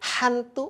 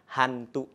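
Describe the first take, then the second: First: The h sound is forced and exaggerated. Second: The h sound is soft and ordinary. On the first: The speaker calls it wrong. "tidak ya" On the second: The speaker calls it right. "biasa saja"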